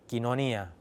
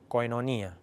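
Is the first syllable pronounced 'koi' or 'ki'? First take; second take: ki; koi. First: The first syllable is pronounced 'ki'. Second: The first syllable is pronounced 'koi'. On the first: This is the New Testament Greek pronunciation. "dalam bahasa Yunani kitab suci Perjanjian Baru ataupun Septuaginta berkata kinonia" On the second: This is the ancient Greek pronunciation. "bahasa Yunani Yunani kuno eh, lafalnya adalah koinonia"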